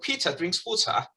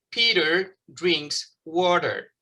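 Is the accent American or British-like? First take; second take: British-like; American. First: It is said with a British-like accent. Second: It is said with an American accent. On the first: "Yo no digo así, yo digo" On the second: "un norteamericano puede decir"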